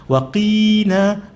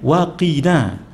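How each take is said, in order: First: The vowel after 'q' is drawn out long. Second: The vowel after 'q' is kept short. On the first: It addresses a god of women. The speaker calls it wrong. "Siapa yang baca panjang" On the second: It asks God to shield us. The speaker calls it right. "Dia mesti waqina"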